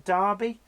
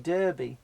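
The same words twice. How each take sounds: First: It is said with a British pronunciation. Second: It is said with an American pronunciation. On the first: "we're used to Derby" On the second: "but you call it the Kentucky Derby"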